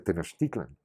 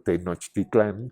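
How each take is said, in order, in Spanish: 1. El acento cae en la penúltima sílaba. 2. El acento cae en la última sílaba. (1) "se dice Tenochtitlan, que es suavísimo, fácil de decir" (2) "no se dice, por supuesto, Tenochtitlán, que es muy feo"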